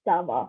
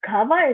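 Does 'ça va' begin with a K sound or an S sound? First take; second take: S sound; K sound. First: It begins with a soft S sound. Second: It begins with a hard K sound. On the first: The speaker calls it right. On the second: The speaker calls it wrong. "it's not"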